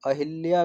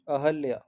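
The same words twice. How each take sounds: First: अहिल्या with short i after the h; a-HIL-ya, middle vowel a clear i in अहिल्या; wrong pronunciation. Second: अहल्या with short a after the h; a-HAL-ya, no i sound in अहल्या; correct pronunciation. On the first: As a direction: show the wrong अहिल्या with an i sound. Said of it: "अहिल्या भी नहीं होगा". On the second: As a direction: model अहल्या clearly with an open middle vowel. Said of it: "क्या आ जाएगा शुद्ध?". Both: Shown as a demonstration.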